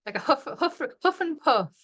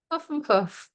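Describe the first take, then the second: First: Light breathy huffs on huff and puff; a lightly hammed-up huff and puff; mock huffing. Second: Said in the usual way. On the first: Shown as a demonstration. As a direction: puff the words out playfully. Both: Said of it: "I'm a yawner and a puffer now".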